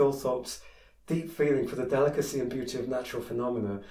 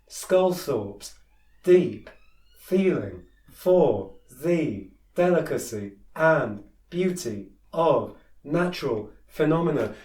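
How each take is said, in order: First: It flows as one connected phrase. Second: It pauses after each separate word. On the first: The reader knows where the sentence is heading. The speaker calls it right. "sort of keep going like that" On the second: The reader does not see how the words fit together. The speaker calls it wrong. "Like each word is just a thing"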